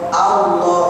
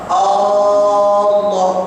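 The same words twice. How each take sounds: First: The first vowel is kept short. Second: The first vowel is drawn out long. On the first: The speaker calls it right. "wajib dibaca Allah" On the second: The speaker calls it wrong. "Jangan panjangkan arm"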